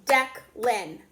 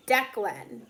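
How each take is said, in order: First: "Declan" split into two separate beats; "Declan" with a gap between its two syllables; clapped syllables. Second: Said in the usual way. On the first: Shown as a demonstration. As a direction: clap out "Declan", one beat per syllable. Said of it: "Okay, let's do it". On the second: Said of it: "how many claps are you hearing".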